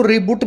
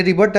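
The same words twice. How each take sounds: First: "रीबूट" with a long oo in the second syllable; students' mispronounced "रीबूट", rhyming with boot; mistaken pronunciation. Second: "रिबट" with a short uh, rhyming with but; teacher's model "रिबट", short vowel in the second syllable; correct pronunciation. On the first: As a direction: say "रीबूट" like English reboot. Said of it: "कुछ बच्चे इसको रीबूट भी बोलते हैं". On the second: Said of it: "मतलब रिबूट मत बोलना". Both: Shown as a demonstration.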